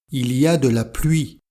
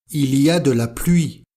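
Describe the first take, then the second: Both takes have the same delivery.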